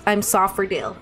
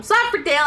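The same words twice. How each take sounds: First: Said in the usual way. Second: Said louder. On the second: Shown as a demonstration. Streamer repeats praise for Dale louder, a bit louder. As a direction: say it again louder for everyone. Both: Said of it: "I'll say it louder".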